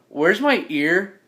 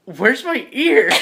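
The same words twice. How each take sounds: First: Slow, drawn-out question; mildly insistent and drawn out; insistent, not angry. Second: High, slow, drawn-out question; higher-pitched, plaintive insistence; pleading, not angry. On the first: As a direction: ask it slowly, without anger. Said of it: "like, not angry, I'm just like". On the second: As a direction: wail it without anger. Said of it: "not angry, I'm just like". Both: Acted.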